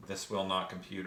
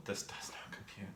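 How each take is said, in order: First: Said in the usual way. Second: Whispering. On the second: Real, not acted. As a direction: whisper "this does not compute" under the breath. Muttering the channel name twice.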